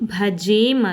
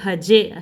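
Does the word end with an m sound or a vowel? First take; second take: m sound; vowel. First: The word ends with an m sound. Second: The word ends with a plain vowel. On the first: The speaker calls it wrong. "ಇದು ಭಜೇಮ್ ಅಲ್ಲ" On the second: The speaker calls it right. "Actually ಇದು ಭಜೆ ಅಷ್ಟೇ, ಇಲ್ಲಿ ಸೊನ್ನೆ ಬರಬಾರ್ದು"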